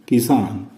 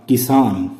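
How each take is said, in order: No difference in how they are said.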